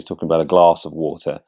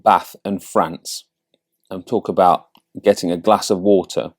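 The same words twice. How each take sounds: First: "glass" with a long southern A, as in father. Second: "Bath", "France" and "glass" with a short flat northern A, as in cat. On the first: Coach showing speech down in Sussex, southern long A in "glass". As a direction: say "glass" as "glahss", southern English. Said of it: "when I'm down here in Sussex". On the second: Coach showing speech around a Yorkshire mum, northern short A in "glass". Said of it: "sound a bit more northern". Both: Shown as a demonstration.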